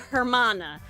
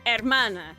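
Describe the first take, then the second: First: The first sound h is pronounced. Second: The first sound h is silent. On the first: The speaker calls it wrong. "They had to say hermana" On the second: The speaker calls it right. "Why could people not say hermana?"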